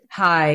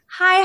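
First: The greeting sounds low and bored. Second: The greeting sounds bright and cheerful.

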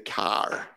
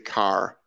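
First: It is said with a Massachusetts accent. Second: It is said without a Massachusetts accent. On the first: This is how the speaker does not say it. The speaker calls it wrong. "I don't say car" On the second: This is how the speaker really says it. The speaker calls it right. "when I say car, I say car"

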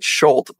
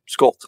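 First: The name begins with a 'sh' sound. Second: The name begins with an 'sk' sound. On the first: The speaker calls it wrong. "Everyone pronounces it Schult" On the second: The speaker calls it right. "but it's really Skolt"

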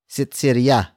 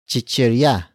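First: The word begins with an s sound. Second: The word begins with a ch sound.

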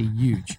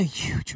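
First: The word starts with a Y sound, no H. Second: The word is whispered with an H at the start. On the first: The speaker calls it wrong. "I can't pronounce the H. I just say huge" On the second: The speaker calls it right. "I'm whispering because that's the only way I can pronounce the H"

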